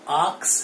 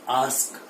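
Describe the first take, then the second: First: The k sound comes before the s sound. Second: The k sound comes after the s sound. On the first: The speaker calls it wrong. "ये आस्क है ना कि आक्स है" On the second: The speaker calls it right. "It is आस्क"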